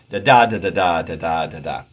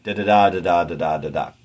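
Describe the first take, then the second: First: "da da" as da-DA, then "da da da" as da-da-DA; loud chant of "da da da", anapest in second place; anapest substitution beat. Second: "Da-da-da" as da-da-DA, then "da-da" as da-DA; loud chant, "Da-da-da" first, iambs after, falling away; anapest substitution beat. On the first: Teacher moving the anapest one foot later, chanted beat. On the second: Teacher substituting an anapest up front, chanted beat. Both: Shown as a demonstration. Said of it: "substitute an anapaest into an iambic line".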